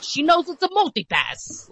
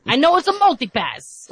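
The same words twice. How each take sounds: First: High, exasperated mock insistence; insist, fed up, it's a multipass; Bruce Willis quote. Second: High, louder exasperated whine; mock exasperation. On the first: Retelling the airport scene, exasperated high mock whine. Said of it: "then he's like". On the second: To her kids repeating themselves, exasperated high whine. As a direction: cut the kids off, fed up. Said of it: "whenever my kids are repeating something".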